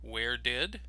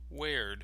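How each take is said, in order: First: Both words are said fully and separately. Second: The words are shortened into one syllable. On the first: "the full form" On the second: "the contraction"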